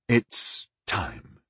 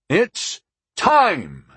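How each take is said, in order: First: It is said gently and softly. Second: It is said loudly, called out.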